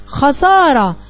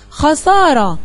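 First: Said in the usual way. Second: خسارة stretched slowly, syllable by syllable; slow, drawn out. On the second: Shown as a demonstration. Teacher presenting a word to the class, slow and stretched. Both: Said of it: "يا ترى أصلها إيه".

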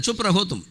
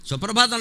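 First: సుప్రహోతం said as chupra-hotum; mock mispronunciation, chupra-hotum; garbled suprabhatam. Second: Said in the usual way. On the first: Shown as a demonstration. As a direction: turn suprabhatam into చుప్రహోతం. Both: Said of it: "సుప్రభాతం లేదు".

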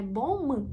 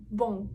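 First: BON said as bom-m, lips closed on M; sounded final M. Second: BON ending in a nasal vowel, no M. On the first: Teacher shows the wrong way, BON with a hard M. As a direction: finish BON on a separate, fully pronounced M. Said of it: "Це не bon". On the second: Teacher shows the correct way, BON with nasal ending. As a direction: let BON fade through the nose, lips open. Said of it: "Носовий остає". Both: Shown as a demonstration.

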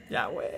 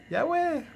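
First: Said in the usual way. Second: Ya, güey jumping much higher, pleading; high-pitched plea. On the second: Real, not acted. Host begging a viewer to stop moving the phone, pitched up high. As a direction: squeak the second ya, güey up high.

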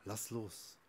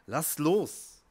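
First: "Lass los" said softly and low; "Lass los" sussurrato piano. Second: "Lass los" said loud and firm; "Lass los" detto forte e deciso. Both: Shown as a demonstration. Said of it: "Du musst einfach nur loslassen".

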